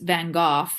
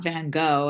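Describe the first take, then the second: First: The name is said in a non-American way. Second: The name is said the American way.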